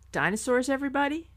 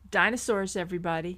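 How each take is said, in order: First: The speaker sounds hesitant and unsure. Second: The speaker sounds firm and confident. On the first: The speaker doubts the idea. The speaker calls it wrong. "You didn't sound sure of that" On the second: The speaker stands behind the idea. The speaker calls it right. "There you go"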